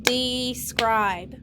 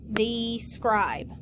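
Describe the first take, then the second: First: Two pushed beats, de-scribe; clapped syllables. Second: Said in the usual way. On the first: Shown as a demonstration. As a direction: clap Describe as de-scribe. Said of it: "Clap it". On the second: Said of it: "You should have underlined E, I, and E".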